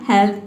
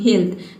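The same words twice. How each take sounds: First: The vowel is a short e sound. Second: The vowel is a long ee sound. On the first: "पहले आपने pronounce किया" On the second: "तीसरा pronunciation क्या है ई"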